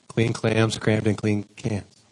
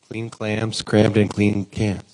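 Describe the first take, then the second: The two takes are said the same way.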